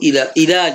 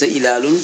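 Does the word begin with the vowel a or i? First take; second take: i; a. First: The first vowel is i, with kasra. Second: The first vowel is a, with fatha. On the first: The speaker calls it right. "قوله إلال" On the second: The speaker calls it wrong. "ليس إلال"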